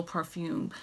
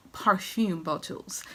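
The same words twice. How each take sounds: First: Said in the usual way. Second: Slow mock-French pronunciation; playful French accent. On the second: Vlogger showing off her bottles in playful mock French. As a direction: put on a drawn-out little French accent. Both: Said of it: "that's my little French".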